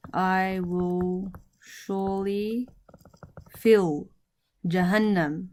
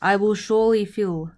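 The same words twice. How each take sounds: First: Very slow, stretched words with pauses; word-by-word dictation. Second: Said in the usual way. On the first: Shown as a demonstration. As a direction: draw each word out for learners. Teacher repeats translation word by word.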